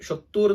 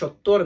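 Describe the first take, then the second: First: The last syllable has an 'oo' vowel. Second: The last syllable has an 'o' vowel. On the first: The speaker calls it wrong. "ഷൊത്തൂർ എന്ന് പറഞ്ഞ പോലെ നമുക്ക് കേൾക്കാൻ പറ്റും" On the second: The speaker calls it right. "പക്ഷേ ഷൊത്തോർ എന്നാണ്"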